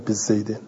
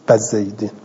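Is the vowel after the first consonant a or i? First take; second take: i; a. First: The first syllable has the vowel i. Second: The first syllable has the vowel a. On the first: "نه بزیدن" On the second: "بعضی عرب و این باء و فتح میدهند"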